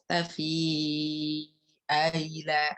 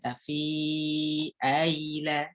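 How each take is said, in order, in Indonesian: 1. Vokal panjang dibaca sangat panjang. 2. Vokal panjang dibaca dengan panjang sedang. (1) "Kalau Warsh ya berarti tul" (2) "yang lainnya berarti tawasud saja"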